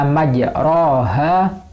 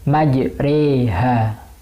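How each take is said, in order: First: The vowel after r is an open a sound. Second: The vowel after r leans toward an e sound. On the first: The speaker calls it wrong. "yang biasanya dibaca majroha" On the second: The speaker calls it right. "karena bacaan imalah maka dibaca majreha"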